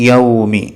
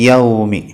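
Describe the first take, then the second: No difference in how they are said.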